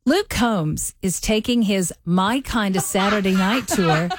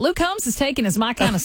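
First: Slow, careful read with the Southern accent suppressed; accent-neutral read. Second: Country Southern accent, with amusement; natural Southern twang. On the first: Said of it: "try to sound as neutral as you can". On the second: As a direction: read it in an easy Southern twang. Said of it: "that's how I talk". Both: Shown as a demonstration.

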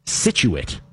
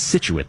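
First: "Scituate" said the caller's mistaken way, drawn out slowly; wrong Scituate. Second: "Scituate" with the stress on the first syllable, SIT; right Scituate. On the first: Host quoting a caller's wrong pronunciation of "Scituate". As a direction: say "Scituate" the incorrect way a caller did. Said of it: "the only one you were incorrect on was". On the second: Host correcting a caller, stressing SIT in "Scituate". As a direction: put the weight on SIT in "Scituate". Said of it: "Emphasis on the sit". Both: Shown as a demonstration.

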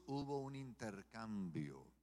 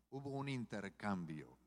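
Both takes have the same delivery.

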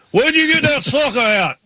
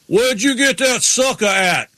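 First: Crank the holler up; Ward Burton impression. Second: High, slow, hammed-up country yell; Ward Burton impression. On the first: Retelling Ward Burton's line to the cohost, an even bigger country holler. Repeating the quote even higher. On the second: Ward Burton hollering at Kenny over a popsicle, a hammed-up country yell. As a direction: bellow it like a good old boy.

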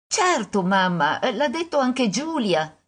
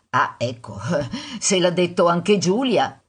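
First: Put-on higher, eager child's reply; a touch of a sure little daughter; lightly voiced little girl. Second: Amused mother's mock concession; gently ironic. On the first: Daughter assuring mother about Giulia, lightly voiced little girl. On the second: Mother humouring daughter's proof, gently ironic.

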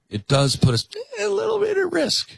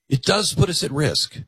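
First: Much higher mock prissy voice on bit; mock Michelle. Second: Said in the usual way. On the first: Host parodying Michelle's warning, high mocking squeak.

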